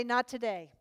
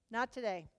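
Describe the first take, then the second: First: Said in the usual way. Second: Quiet firm refusal. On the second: Acted. Rebuking his own flesh a second time, quiet and firm. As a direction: say it again, much softer, settled.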